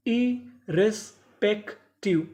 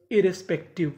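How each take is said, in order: First: irrespective split slowly as इ-रेस-पेक-टिव; slow teaching breakdown of irrespective; syllable by syllable. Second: Said in the usual way. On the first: Shown as a demonstration. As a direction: pause between each chunk of irrespective. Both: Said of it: "टुकड़ों में तोड़ तोड़ के पढ़ें".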